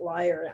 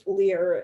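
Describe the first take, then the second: First: The word sounds like 'liar', rhyming with fire. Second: The word sounds like 'leer', rhyming with ear. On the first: This is how the speaker has been saying it. "I've pronounced it Lyre" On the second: This is how others have been saying it. "You guys are pronouncing it Lear"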